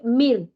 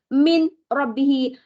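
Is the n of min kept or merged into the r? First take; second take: merged; kept. First: The n merges into the following r sound. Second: The n is clearly kept before the r. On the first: It is recited by the rules of Quranic recitation. "Kalau baca dengan tajwid" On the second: The words are read separately, one by one. "tapi kalau kita pecah-pecah dia"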